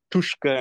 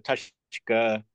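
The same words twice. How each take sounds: First: Tushka as the actors mispronounced it; mispronounced Choctaw. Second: Tushka as a Choctaw speaker says it; correct Choctaw. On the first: Retold or imitated. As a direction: imitate the actors getting Tushka wrong. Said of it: "how they mispronounce words". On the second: Shown as a demonstration. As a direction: say Tushka correctly, as the contrast to the actors. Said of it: "instead of Tushka".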